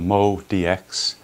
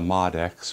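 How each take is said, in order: First: The first part is said as two syllables. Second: The first part is said as one syllable. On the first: The speaker calls it right. "It's called the Mo D X" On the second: The speaker calls it wrong. "Not the Mod X"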